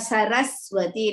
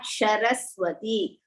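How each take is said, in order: First: The word begins with an 's' sound. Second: The word begins with an 'sh' sound. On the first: The speaker calls it right. "we call that as sa" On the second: The speaker calls it wrong. "not Sharaswati"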